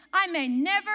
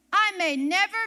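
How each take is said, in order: Both takes have the same delivery.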